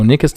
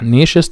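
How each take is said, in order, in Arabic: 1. ch صوت k قوي. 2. ch صوت حفيف ناعم. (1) "في ناس تانيين بينطقوها نيكست" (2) "النطقين صح"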